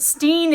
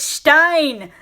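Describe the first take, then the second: First: The vowel sounds like 'ee'. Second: The vowel sounds like 'eye'. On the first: The speaker calls it wrong. "your last name isn't Steen" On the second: The speaker calls it right. "it's Stein"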